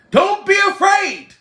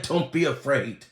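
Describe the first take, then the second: First: High, loud belted cry. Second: Low, soft quote. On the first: Singer urging [name] onward, loud high belt. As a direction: belt it out at the top. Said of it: "That's what [name] allegedly was saying". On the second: Comedian quoting the singer, low hushed delivery. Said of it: "He said". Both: Retold or imitated.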